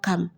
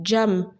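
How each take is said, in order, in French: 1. Le mot commence par un son K dur. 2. Le mot commence par un son J. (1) "ce n'est pas cam" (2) "le C en langue turque se lit J"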